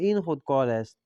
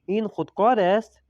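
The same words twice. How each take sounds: First: The pitch falls at the end like a statement. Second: The pitch rises at the end like a question. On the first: It states that this is a pen. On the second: It asks whether this is a pen.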